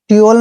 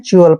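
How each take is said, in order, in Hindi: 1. इस अक्षर की शुरुआत सादी t की आवाज़ से होती है। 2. इस अक्षर की शुरुआत ch की आवाज़ से होती है। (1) "ट्यूल नहीं पढ़ना है" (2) "जब भी टी के बाद यू ए आता है तो टी का उच्चारण च करते हैं"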